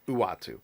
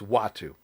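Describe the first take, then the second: First: The name begins with an 'oo' sound. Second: The name begins with a 'w' sound. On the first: The speaker calls it wrong. "not Uatu" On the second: The speaker calls it right. "I have a feeling it's Watu"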